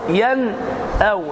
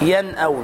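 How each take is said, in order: First: The nun is overly stressed and separated. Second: The nun is pronounced clearly but naturally. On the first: The speaker calls it wrong. "مبالغة في الإظهار، لا تبالغ" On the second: The speaker calls it right. "الصواب أن تنطق هكذا ين أو"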